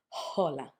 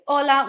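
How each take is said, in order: First: The word begins with a breathy h sound. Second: The word begins directly with the vowel. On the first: The speaker calls it wrong. "We don't say hola" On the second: The speaker calls it right. "We say hola"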